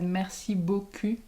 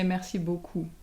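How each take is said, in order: First: The last vowel is a front rounded 'u'. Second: The last vowel is a back rounded 'ou'. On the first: It says something rude instead of thank you. The speaker calls it wrong. "someone said" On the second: It means thank you very much. The speaker calls it right. "she wanted to say"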